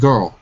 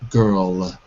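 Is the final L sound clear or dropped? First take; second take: dropped; clear. First: The final L sound is dropped. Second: The final L sound is clearly exaggerated. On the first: The speaker calls it wrong. "not girl" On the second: The speaker calls it right. "but girl"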